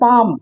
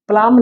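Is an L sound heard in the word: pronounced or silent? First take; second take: silent; pronounced. First: The word is said with no L sound. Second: The word is said with an L sound. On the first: The speaker calls it right. "क्योंकि पाम" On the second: The speaker calls it wrong. "प्लाम नहीं"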